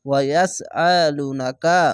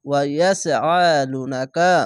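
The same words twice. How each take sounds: No difference in how they are said.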